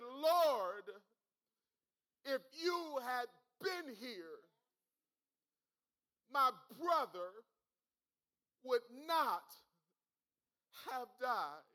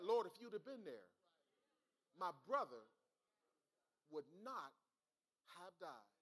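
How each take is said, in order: First: Loud, drawn-out mock lament with long pauses; imitated anguished plea, each phrase falling away; retold weeping plea. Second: Martha's plea, not indignant, gradually dying away; restrained grief, retold. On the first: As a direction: cry out Mary's plea, preacher-style, without real tears. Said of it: "Mary is weeping in tears". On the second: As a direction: retell a measured plea, phrase by phrase. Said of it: "No, no. Now, she said".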